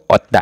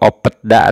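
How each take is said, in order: First: Only a t comes before da. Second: A p and a t come before da. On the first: "atau otda. Salah" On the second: "atau opetda ... Salah"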